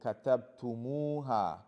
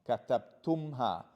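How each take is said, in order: First: A linking u vowel comes before the final ha. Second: The consonants m and h meet with no vowel. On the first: The speaker calls it right. "they will add this waw to make it flow" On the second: The speaker calls it wrong. "you see there's some struggle with your tongue"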